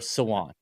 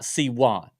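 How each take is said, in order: First: The name is run together as one word. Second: The name is split with a break inside. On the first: The speaker calls it right. "I'm just gonna say it's like one word" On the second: The speaker calls it wrong. "not S, like not Siwan"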